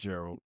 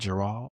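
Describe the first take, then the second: First: The name is said in a natural, everyday pronunciation. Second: The name is said in an imitated, put-on pronunciation. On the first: This is how the name's owner says it. The speaker calls it right. "nah, it's Gerald. Get it right" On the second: This is how other people mispronounce the name. The speaker calls it wrong.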